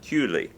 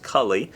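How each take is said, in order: First: The surname is said with a French Canadian pronunciation. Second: The surname is said with a non-French Canadian pronunciation. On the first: This is how the name's owner says it. The speaker calls it right. "it's French Canadian pronunciation Cooley" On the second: This is a mistaken guess at the name. The speaker calls it wrong. "you might think it was pronounced Cully"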